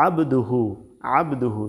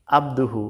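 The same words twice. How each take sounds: First: আবদুহু opening on a squeezed ain; pressed throat ain. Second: আবদুহু with a simple open a; easy alif sound. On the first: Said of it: "একটু চাপ দিয়ে বলতে হবে". (আবদুহু, আইন চাপ দিয়ে) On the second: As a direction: say আবদুহু lightly, without the throat ain. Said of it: "সহজভাবে বলতেছি". (আবদুহু সহজভাবে, আইন ছাড়া) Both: Shown as a demonstration.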